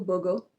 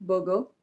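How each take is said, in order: First: The R sounds are silent, British style. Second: The same.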